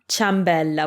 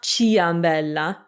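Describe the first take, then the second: First: The i is silent, starting with cha. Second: The i is sounded, starting with chee-a. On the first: The speaker calls it right. "we just say cha" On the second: The speaker calls it wrong. "It's not ciambella"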